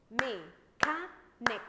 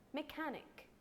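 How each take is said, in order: First: "Mechanic" in three loud, slow, separate beats; split into syllables. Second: Said in the usual way. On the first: Shown as a demonstration. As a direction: chop "Mechanic" loudly into three syllables with pauses. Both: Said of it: "Let's divide it into syllables".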